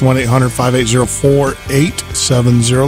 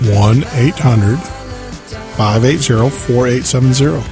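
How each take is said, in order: First: The number is read at a normal pace. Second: The number is read at a slower pace.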